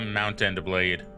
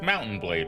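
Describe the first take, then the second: First: The words are said separately and clearly. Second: The first two words run together like Mountain.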